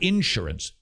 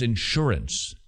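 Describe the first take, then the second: First: It is said with a Southern US pronunciation. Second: It is said with a non-Southern US pronunciation. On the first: The speaker calls it wrong. "It's not insurance" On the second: The speaker calls it right. "It's insurance. Do you hear the difference"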